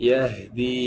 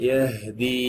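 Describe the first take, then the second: No difference in how they are said.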